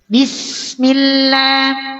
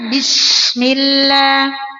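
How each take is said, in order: First: The s is hissed lightly. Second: The s is hissed too strongly. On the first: The speaker calls it right. "huruf sin bunyinya" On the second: The speaker calls it wrong.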